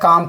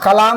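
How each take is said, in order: First: The L sound is silent in the word. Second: The L sound is pronounced in the word. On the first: The speaker calls it right. "काम पढ़ना है" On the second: The speaker calls it wrong. "कलाम नहीं पढ़ना है"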